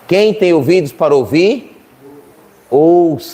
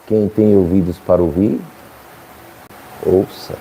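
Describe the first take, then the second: First: The phrase is spoken loudly. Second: The phrase is spoken quietly. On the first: "Eu vou falar mais alto" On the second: "que eu falei baixo"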